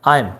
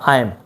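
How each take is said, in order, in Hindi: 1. दोनों शब्द मिलकर एक छोटे से अक्षर में बदल जाते हैं। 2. दोनों शब्द मिलकर एक छोटे से अक्षर में बदल जाते हैं।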